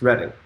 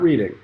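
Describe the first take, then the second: First: The first syllable sounds like 'red'. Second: The first syllable sounds like 'reed'. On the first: The speaker calls it right. "It's Reading" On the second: The speaker calls it wrong. "Not Reading, so make sure you say it right"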